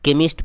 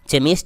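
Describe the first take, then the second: First: The word begins with a 'k' sound. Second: The word begins with a 'ch' sound. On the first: The speaker calls it right. "केमिस्ट पढ़ेंगे" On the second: The speaker calls it wrong. "चेमिस्ट इसे नहीं पढ़ेंगे"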